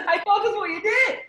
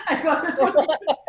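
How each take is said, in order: First: Much higher, laughing through every word; real laughter, higher and louder; laughing hard. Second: Words broken up by laughter, pitched high; real laughter, higher; laughing. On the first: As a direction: crack up while repeating it. Repeats it laughing harder. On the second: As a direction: laugh through the line. Laughing at his own naivety. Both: Real, not acted.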